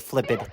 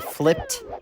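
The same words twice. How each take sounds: First: The ending is an extra id syllable. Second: The ending is a plain t sound. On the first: The speaker calls it wrong. "My students tend to use id for all past tense verbs" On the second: The speaker calls it right. "a T"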